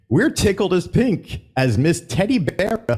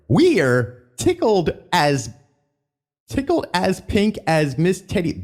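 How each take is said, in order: First: Higher, botched announcer read; lightly hammed emcee read; showman voice. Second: Slow, higher hammed-up announcer read; a hint of a Country Bear emcee; showman voice retry. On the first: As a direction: stumble through the show-host line. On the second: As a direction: read it like a folksy show host. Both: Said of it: "oh, let me try that again".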